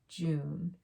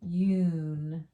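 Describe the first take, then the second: First: The vowel is said as 'oo'. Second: The vowel is said as 'yoo'. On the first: The speaker calls it right. "it still has more of an oo sound" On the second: The speaker calls it wrong. "Kind of works"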